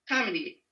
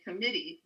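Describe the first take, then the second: First: The stress is on the first syllable. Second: The stress is on the second syllable. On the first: It sounds like a different word. The speaker calls it wrong. "if I mispronounce this one word" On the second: It is heard as the intended word. The speaker calls it right. "I'm trying to say committee"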